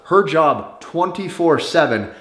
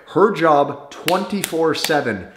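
No difference in how they are said.

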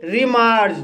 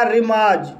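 First: Said in the usual way. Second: रिमाज with a long aa and no r before the j; correct pronunciation. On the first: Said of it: "गलत तरीके से लिखा गया है". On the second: Shown as a demonstration. Teacher gives learners the right way to say it, silent R. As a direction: say रिमाज, dropping the second r. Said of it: "इसका सही उच्चारण होगा".

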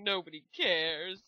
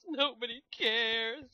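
First: Said in the usual way. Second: Slow, put-on sulky repeat of nobody cares; mock sulky voice. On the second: Shown as a demonstration. Host echoes the viewers in a mock sulky voice. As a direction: drag it out like a mopey echo.

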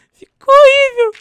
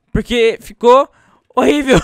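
First: Far higher, louder, slow squeal. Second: Said in the usual way. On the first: Real, not acted. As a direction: squeal it in horror.

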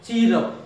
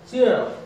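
First: Counter-example "cheer up" with a plain ee and no glide; "cheer" with a pure ee before "up"; wrong "cheer up". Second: "Cheer" with an ee-a diphthong; glide in "Cheer up". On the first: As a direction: say "cheer up" run together as "chee-rup". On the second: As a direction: say "Cheer up" as "chee-er up". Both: Shown as a demonstration. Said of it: "Don't say".

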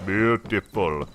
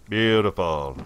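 First: Drawn out. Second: Said in the usual way. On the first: Shown as a demonstration.

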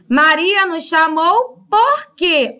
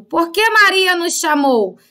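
First: Slow "Maria nos chamou por quê?" leaning on "por quê" at the end; stress on final question word. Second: "Por que Maria nos chamou?" opening on "Por que" without a break; question word first. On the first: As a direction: save the weight for the closing "por quê". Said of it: "no final da frase". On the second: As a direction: lead with "Por que" and run on through "chamou". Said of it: "agora o porquê está no começo". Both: Shown as a demonstration.

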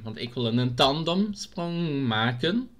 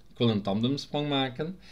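First: Langgerekt. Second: Said in the usual way. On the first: Pretend. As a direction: stretch "tandemsprong maken" and lift the end. Says it drawn out, then repeats. ("tandemsprong maken" uitgerekt, stijgend op het einde)

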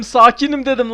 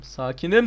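First: Angry insistence. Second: Said in the usual way. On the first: Real, not acted.

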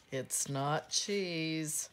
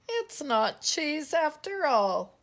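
First: Said in the usual way. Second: Loud, high mock-tearful complaint; sniffing disappointment. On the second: A narrator's reading. Pip finding the nose is no cheese, sniffing disappointment. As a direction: wail it lightly, higher and louder. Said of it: "sniffed Pip".

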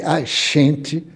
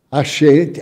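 First: "a gente" said as "a xente", with a sh sound for the g. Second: Said in the usual way. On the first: Shown as a demonstration. Lecturer showing how the word shifted, with a sh sound for the g. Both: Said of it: "com X".

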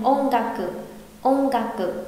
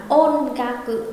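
First: "ôn ga cự" with the n of "ôn" as a light ng; N bent to soft NG. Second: "ôn ga cự" with a full n before g; overly clear N. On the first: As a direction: glide from "ôn" into "ga" on a nasal ng. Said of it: "mà sẽ đọc lái thành". (đọc lái "ôn" gần thành "ông") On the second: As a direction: keep the n of "ôn" distinct. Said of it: "không đọc rõ hẳn là". (đọc "ôn ga cự" rõ âm n) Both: Shown as a demonstration.

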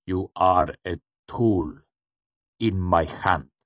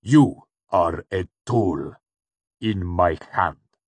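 First: Slow, measured, gently menacing; gentle interruption. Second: Slow, louder, cold insistence; forceful, deliberate cold menace; cool, hard repetition. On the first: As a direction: gently put them in their place, word by word. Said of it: "the shadowed man interrupted gently". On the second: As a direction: repeat it coolly, each word driven home. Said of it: "the cool voice repeated". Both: A narrator's reading.

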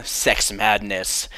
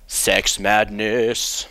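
First: Drawn out title reveal, slow; slow dramatic title. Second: Very slow, drawn out announcer; dramatic title announcer. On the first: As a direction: announce it slowly. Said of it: "this is called". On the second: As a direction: boom out the title slowly. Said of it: "featuring the nineteen thirty-eight movie". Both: Shown as a demonstration.

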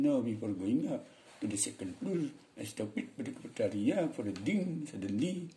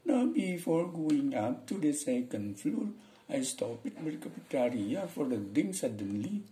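First: Mock Balinese-accented English; demonstrated Balinese intonation. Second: Slow, high-pitched mock Indian English; demonstrated Indian intonation, high and slow; Indian accent. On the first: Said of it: "Orang Bali misalnya". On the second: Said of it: "Orang India nih". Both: Shown as a demonstration.

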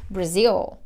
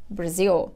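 Both takes have the same delivery.

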